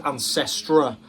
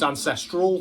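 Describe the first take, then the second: First: The word ends without an L sound. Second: The word ends with an L sound. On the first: The speaker calls it wrong. "I thought it was Ancestra" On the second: The speaker calls it right. "it's got quite clearly got an L on the end there"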